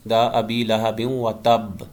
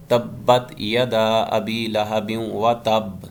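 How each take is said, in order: First: تب ending slow with the b pressed firmly; slow firm recitation. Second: تبت held slow, the doubled b pressed hard; slow recitation with doubled b. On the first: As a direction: press and hold the b of تب. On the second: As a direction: dwell firmly on the doubled b in تبت. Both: Shown as a demonstration. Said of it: "خوب جماؤ کے ساتھ پڑھیں گے".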